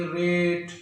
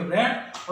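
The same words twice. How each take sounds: First: "रेट" with the vowel stretched long; teacher's long-vowel example "रेट". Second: "रैट" with a short, quick vowel; teacher's short-vowel example "रैट". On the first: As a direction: draw out the "ay" in "रेट". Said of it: "आवाज़ को लंबा क्यों कर रहे". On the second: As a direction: say "रैट" short, not drawn out. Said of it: "long sound produce करनी है". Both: Shown as a demonstration.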